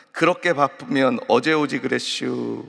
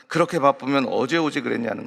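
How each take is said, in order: First: Lightly drawled Chungcheong banner line; Chungcheong dialect. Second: Said in the usual way. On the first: Retold or imitated. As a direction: read the sign with a hint of Chungcheong. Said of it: "충청도 경찰서에서 만든". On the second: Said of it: "서울 경찰서에서는".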